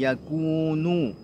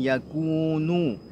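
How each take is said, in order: First: The vowel after k is a full u. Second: The same.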